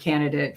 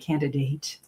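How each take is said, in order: First: It is said with a casual Midwestern pronunciation. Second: It is said with a careful trained pronunciation. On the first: This is how people said it growing up. The speaker calls it wrong. "growing up, we would say" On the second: This is how speech training teaches it. The speaker calls it right. "you have to say candidate"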